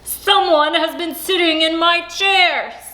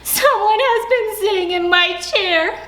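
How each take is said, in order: First: It is said in a big, deep voice. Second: It is said in a tiny, small voice.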